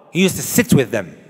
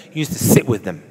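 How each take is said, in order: First: Said in the usual way. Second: Preacher repeating "He used to sit with them" for the congregation to take in, stressing "used"; emphatic repeat. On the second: Shown as a demonstration. Preacher to congregation, repeating with weight on "used". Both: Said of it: "I'll say that again for emphasis".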